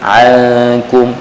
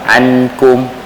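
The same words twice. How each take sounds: First: The n is a nasal hum without tongue contact. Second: The n is fully pronounced with tongue contact. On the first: The speaker calls it right. "jadi jauhkan ujung lidah kita daripada gigi kacip sebelah atas" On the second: The speaker calls it wrong. "kalau kita rapatkan, tekapkan ataupun lekapkan, maka dia akan jadi izhar"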